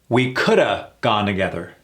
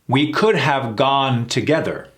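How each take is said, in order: First: 'Could have' is reduced to one word 'coulda'. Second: 'Could have' is said as two full words. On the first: "Versus, we coulda" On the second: "Sounds awkward, doesn't it? Sounds like we're trying too hard"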